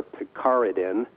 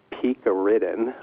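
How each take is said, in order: First: Picaridin as pih-CAR-ih-din; alternative pronunciation. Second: Picaridin as PEEK-uh-RID-in; first pronunciation variant. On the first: Doctor offering the other way to say the ingredient, picaridin as pih-CAR-ih-din. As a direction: stress the second syllable of picaridin, "CAR". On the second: Doctor offering one way to say the ingredient, picaridin as PEEK-uh-rid-in. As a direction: say picaridin with a long "pee" first syllable. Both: Shown as a demonstration. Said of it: "depending on how you wanna, um, say that".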